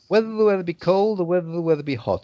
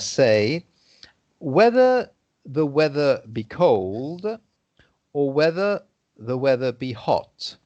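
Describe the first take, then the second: First: It is said quite fast. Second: It is said quite slowly. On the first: It works as a real tongue twister. "that's when you say it fast" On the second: It is easier to understand. "there I was saying it quite slowly"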